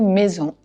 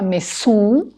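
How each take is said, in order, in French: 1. La consonne du milieu sonne comme un « z ». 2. La consonne du milieu sonne comme un « s ».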